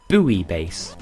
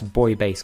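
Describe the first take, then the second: First: Buoy is said differently from the word boy. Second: Buoy is said exactly like the word boy. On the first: The speaker calls it wrong. "they call it Buoy Base" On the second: The speaker calls it right. "the word boy"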